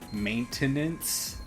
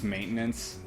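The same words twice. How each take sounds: First: Every syllable of the word is clearly pronounced. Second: The syllables of the word are reduced together. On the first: The speaker calls it wrong. "minus points for actually saying maintenance" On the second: The speaker calls it right. "down here it's just maintenance. There are no pronounced enunciated syllables in words"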